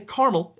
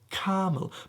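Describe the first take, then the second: First: It is said in an American accent. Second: It is said in a British accent. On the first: "we say caramel in the U S" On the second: "it's more of a British accent thing. You have to go caramel"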